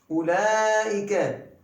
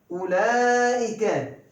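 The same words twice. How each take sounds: No difference in how they are said.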